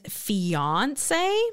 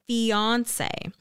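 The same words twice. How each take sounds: First: The stress is on the second syllable. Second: The stress is on the first syllable. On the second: "with the stress on the first"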